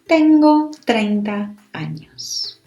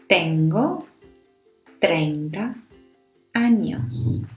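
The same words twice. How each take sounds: First: It is said fast. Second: It is said slowly.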